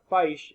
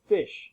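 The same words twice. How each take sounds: First: The vowel is a long I sound. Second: The vowel is a short I sound. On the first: The speaker calls it wrong. "Not a fish" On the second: The speaker calls it right. "it's a fish"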